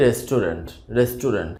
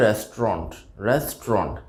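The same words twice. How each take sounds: First: রেস্টুরেন্ট in three beats, "res-tu-rent"; common mispronunciation. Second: রেস্টুরেন্ট squeezed to two beats, "RES-tront"; correct pronunciation. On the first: Teacher shows the everyday mistake, mispronounced. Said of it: "রেস্টুরেন্ট শব্দটি সঠিক না". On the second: Teacher models the word for learners, correctly pronounced. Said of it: "এটি সঠিক উচ্চারণটা হবে". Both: Shown as a demonstration.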